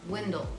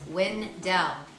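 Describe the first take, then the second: First: The stress is on the first syllable only. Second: Both syllables are stressed equally. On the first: This is how the poet's name is said. "the stress of pronunciation was on the poet's first syllable" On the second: This is how the town's residents say it. "the residents of the town were stressing both syllables"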